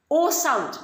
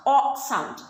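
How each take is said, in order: First: "O" said as a long oh, as in told; a clear, rounded "O", like oh; long O sound. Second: "o" said as an open aw, as in thought; open O sound. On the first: Teacher naming the vowel for children, "O" as a long oh. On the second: Teacher naming the vowel for children, "o" as an open aw. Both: Shown as a demonstration. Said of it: "thought, told".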